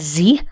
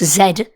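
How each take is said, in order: First: The letter is said as zee. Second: The letter is said as zed. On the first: This is the American way to say it. "if you're in America, they pronounce that as Z" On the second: This is the British way to say it. "we're British"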